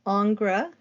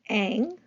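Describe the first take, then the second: First: The name begins with ing and has no ess. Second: The name is one syllable sounding like ang. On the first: "sometimes it's pronounced Ingres" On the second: "Sometimes it's pro- pronounced Ang"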